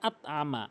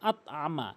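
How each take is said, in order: Both takes have the same delivery.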